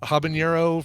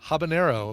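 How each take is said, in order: First: The middle consonant is an ny sound. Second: The middle consonant is a plain n sound. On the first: The speaker calls it wrong. "I've been calling it habanero for as long as I can think of" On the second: The speaker calls it right. "is the actual pronunciation"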